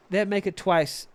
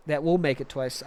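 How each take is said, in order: First: Said in the usual way. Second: "will" put back in and leaned on; corrected reading. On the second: Shown as a demonstration. Streamer rereads the line, stressing "will". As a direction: stress the restored word "will" in "That will make it twice".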